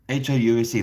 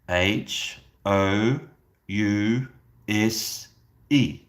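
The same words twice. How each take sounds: First: The letters are spelled out quickly. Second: The letters are spelled out slowly. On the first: The speaker calls it wrong. "That is way too fast" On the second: The speaker calls it right. "I need you to say it slowly like this"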